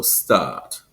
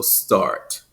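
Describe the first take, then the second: First: "start" with a long vowel and no R; non-rhotic British. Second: "start" with a full American R; rhotic R. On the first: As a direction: drop the R in "start", stretch the vowel. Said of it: "extended vowel sound". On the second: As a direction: sound the rounded R in "start". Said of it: "rounded full R sound". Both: Shown as a demonstration.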